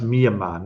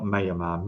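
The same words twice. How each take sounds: First: Myanmar opening on MEE; pronounced MEE-uh-mah. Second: Myanmar opening on MAY; pronounced MAY-uh-mah. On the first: Streamer showing viewers how it's pronounced, Myanmar as MEE-uh-mah. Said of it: "I think it's pronounced". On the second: Streamer showing viewers the version to avoid, Myanmar as MAY-uh-mah. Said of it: "not Myanmar". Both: Shown as a demonstration.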